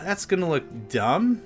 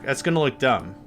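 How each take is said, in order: First: The voice rises at the end like a question. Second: The voice falls at the end like a statement.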